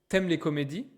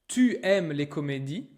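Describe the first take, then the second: First: The word 'tu' is shortened to 't'. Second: The word 'tu' is said in full.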